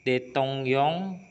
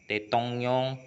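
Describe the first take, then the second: Both takes have the same delivery.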